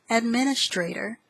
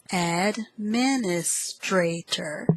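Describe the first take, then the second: First: Said in the usual way. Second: "Administrator" slowly broken into ad-min-is-tra-tor; syllable by syllable. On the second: Shown as a demonstration. Teacher repeats word eight, "Administrator" in slow syllables. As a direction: sound out "Administrator" slowly, five syllables apart.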